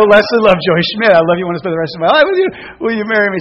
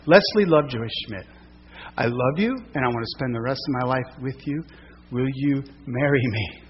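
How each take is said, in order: First: Louder, rushed repeat proposal; proposing again. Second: Soft, tender proposal; lightly voiced heartfelt proposal; proposing marriage. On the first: Retold or imitated. Asking again, louder, faster. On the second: Proposing on one knee by creek.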